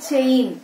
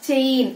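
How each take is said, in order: Both takes have the same delivery.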